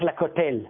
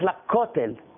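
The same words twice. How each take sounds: First: The stress is on the last syllable. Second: The stress is on the first syllable. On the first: The speaker calls it wrong. "אני לא הולך לכותל" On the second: The speaker calls it right. "אני הולך לכותל"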